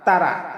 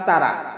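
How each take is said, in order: No difference in how they are said.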